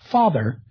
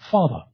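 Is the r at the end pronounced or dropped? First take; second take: pronounced; dropped. First: The r at the end is pronounced. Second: The r at the end is dropped. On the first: "We tend to pronounce the R in words like father" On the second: "speakers of British English tend to retract or even not pronounce that R"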